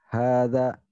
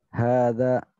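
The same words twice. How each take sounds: No difference in how they are said.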